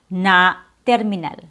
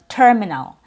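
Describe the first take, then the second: First: The first vowel is a different, inaccurate vowel. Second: The first vowel is a clear er sound. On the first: The speaker calls it wrong. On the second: The speaker calls it right. "start with an accurate vowel sound"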